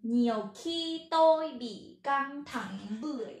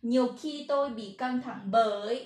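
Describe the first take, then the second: First: "เบื่อย" misread with a ืo-glide vowel; misread final word. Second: "เบย" with one long, plain vowel; corrected pronunciation. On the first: Teacher misreading the Vietnamese example sentence, "เบื่อย" mispronounced. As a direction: read it out loud, slipping to "เบื่อย". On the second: Teacher correcting her Vietnamese example, "เบย" pronounced with a single vowel. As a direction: read it out loud, landing on "เบย". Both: Real, not acted. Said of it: "บ่แม่นเบื่อย ขอโทษ".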